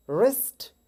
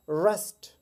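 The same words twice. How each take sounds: First: रिस्ट with a rolled r; wrong take, रिस्ट as rest; wrong wrist. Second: रेस्ट with a rounded r; right wrist. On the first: Teacher demonstrates the wrong रिस्ट. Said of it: "इसका wrong pronunciation है". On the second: Teacher models रेस्ट with rounded lips. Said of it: "थोड़ा round होकर बोलेंगे". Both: Shown as a demonstration.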